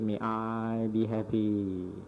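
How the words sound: It is said in a calm, gentle way. The speaker calls it right. "you say in a calm way"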